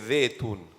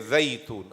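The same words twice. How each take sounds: First: The first syllable has no soft 'ay' glide. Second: The first syllable has a soft 'ay' glide. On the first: The speaker calls it wrong. "don't say zaytun" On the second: The speaker calls it right. "Say zaytun"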